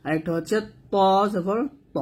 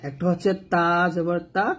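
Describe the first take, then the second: First: ত made thick and heavy; heavy Arabic ত. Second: তা kept thin and light; light Arabic তা. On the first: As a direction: say ত জবর ত with a heavy ত. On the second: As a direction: say তা জবর তা lightly. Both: Shown as a demonstration. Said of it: "দুটোই তা তা উচ্চারণ করা যাবে না".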